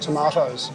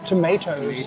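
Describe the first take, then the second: First: It is said in a non-Canadian accent. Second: It is said in a Canadian accent.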